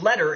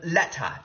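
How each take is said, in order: First: It has an American T and R. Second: It has a British T and no R. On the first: "taking on the American-sounding T and R pronunciations" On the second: "instead of letta"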